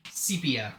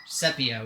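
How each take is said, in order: First: Sepia said as SEE-pee-uh; long-e sepia. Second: Sepia said as SEP-ee-uh; short-e sepia. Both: Shown as a demonstration.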